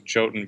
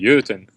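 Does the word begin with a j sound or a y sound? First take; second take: j sound; y sound. First: The word begins with a j sound. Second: The word begins with a y sound. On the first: This matches the spelling people search for. "I say Jotun because I don't want people searching for Y O T U N" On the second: This is how it is said in Norway. "in Norway it's actually Jotun"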